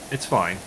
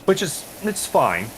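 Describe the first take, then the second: First: Said in the usual way. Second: High and slow, dripping sarcasm; drawn-out grudging fine; sarcastic it's fine. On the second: Real, not acted. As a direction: say fine like it isn't fine at all.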